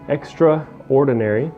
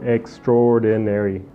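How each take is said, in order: First: The middle 'a' sound is clearly pronounced. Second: The middle 'a' sound is dropped. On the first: "you said extraordinary" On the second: "almost like there's no A"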